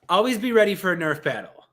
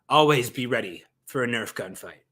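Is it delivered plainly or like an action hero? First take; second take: plainly; action hero. First: It is delivered in a plain, ordinary way. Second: It is delivered in a dramatic action-hero style.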